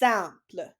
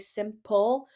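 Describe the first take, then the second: First: It ends with a quick French-style L sound. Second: It ends with an English-style L sound. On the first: The speaker calls it right. "but it's simple" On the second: The speaker calls it wrong. "we want to say simple with an L sound"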